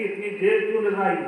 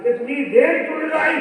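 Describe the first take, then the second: First: Said in the usual way. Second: इतनी देर क्यों लगाई repeated higher and louder, stress on देर; mock scolding repeat. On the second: Old maid imitating her harsh mistress, a mild mock scold.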